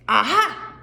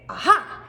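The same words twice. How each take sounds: First: Accusing aha. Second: Mock triumphant queen; triumphant aha. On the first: Queen accusing. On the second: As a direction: point and pounce on it. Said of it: "You can point to him here". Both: Shown as a demonstration.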